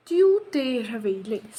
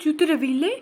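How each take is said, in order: First: Said in the usual way. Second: "Tu te réveilles" asked with the voice rising at the end; rising question tune on "réveilles"; question intonation. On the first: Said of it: "simple मैंने कहा". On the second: Shown as a demonstration. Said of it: "tone को थोड़ा सा change करा".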